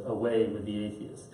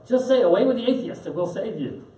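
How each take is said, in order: First: Low, quiet, dry retort with a laugh under it; calm defiant bishop. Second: High, coaxing empress voice with a push on "say"; pressing him, voice pitched way up; imperious empress. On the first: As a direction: turn her words back on her, softly. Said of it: "puts his hand out like this and says". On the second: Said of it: "finally the empress says". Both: Retold or imitated.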